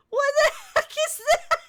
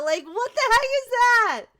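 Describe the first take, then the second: First: Laughing. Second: Said in the usual way. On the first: Real, not acted. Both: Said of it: "Kiddo says Chihuahua".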